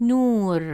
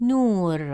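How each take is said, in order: Both takes have the same delivery.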